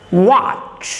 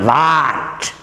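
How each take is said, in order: First: It begins with lips rounded. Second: It begins without lips rounded. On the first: The speaker calls it right. "you must keep your lips rounded. Rounded lips" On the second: The speaker calls it wrong. "Not what"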